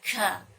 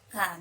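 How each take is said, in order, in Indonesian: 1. Bunyi k terlalu keras dan dilebih-lebihkan. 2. Bunyi k ringan dan alami. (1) "tidak ka. Tidak seperti itu"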